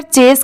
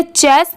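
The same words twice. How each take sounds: First: चेस with longer, closer e; lengthened vowel in चेस; correct pronunciation. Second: चेस with short e, like "chess"; short open vowel in चेस; wrong pronunciation. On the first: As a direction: say चेस as "chayz". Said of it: "चेस की sound आ रही है". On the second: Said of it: "इसे चेस नहीं पढ़ेंगे". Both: Shown as a demonstration.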